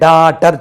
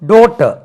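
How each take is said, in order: First: The first vowel is the local Indian vowel. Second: The first vowel is the standard British vowel. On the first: The speaker calls it wrong. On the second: The speaker calls it right.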